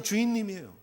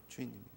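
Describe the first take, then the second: First: Said in the usual way. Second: Much softer repeated aside; quiet echo. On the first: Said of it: "실질적인 관계는 그냥 주인님이에요". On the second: Shown as a demonstration. Preacher repeating the sad word to himself, much softer. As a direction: let it drop almost to a murmur. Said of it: "그냥 주인님이에요".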